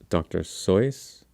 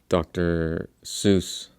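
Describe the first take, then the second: First: The name rhymes with the word voice. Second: The name does not rhyme with voice. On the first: The speaker calls it right. "his name is" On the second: The speaker calls it wrong. "people often pronounce it"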